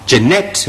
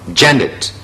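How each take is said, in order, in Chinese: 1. 重音在第二个音节。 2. 重音在第一个音节。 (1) "第二個音節重咯？咪錯晒啦" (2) "個重音節係頭一個"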